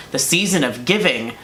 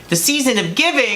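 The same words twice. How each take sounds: First: Said in the usual way. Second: "The season of giving" lifted high and cheery; bright sing-song cheer. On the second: Shown as a demonstration. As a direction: sell "giving" like an ad jingle.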